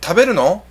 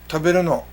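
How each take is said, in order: First: It is said as a question. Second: It is said as a statement. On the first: Asking whether someone will eat. "Are you going to eat?" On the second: Saying that one is going to eat. "You could also respond with mm, taberu no. Yeah, I'm going to eat"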